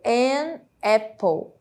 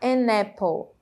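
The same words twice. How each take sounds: First: The two words are said separately. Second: The n joins the following vowel.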